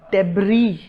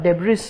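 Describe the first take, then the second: First: डेब्री ending in "ee", s silent; correct pronunciation. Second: डेब्रिस with the final s sounded; wrong pronunciation. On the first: Teacher telling what we call such waste, डेब्री with silent s. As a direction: say डेब्री as "deb-ree". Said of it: "उसको हम बोलते हैं". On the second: Teacher rejecting the mistake, डेब्रिस with sounded s. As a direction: say डेब्रिस as "deb-riss". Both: Shown as a demonstration.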